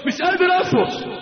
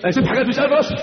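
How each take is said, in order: First: مش قادر أصبر pitched much higher, pleading; desperate cry. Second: Said in the usual way. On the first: Retold or imitated. Warrior in battle crying out to his comrades, with rising desperate longing. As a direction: cry out that you can't hold back, voice lifting high.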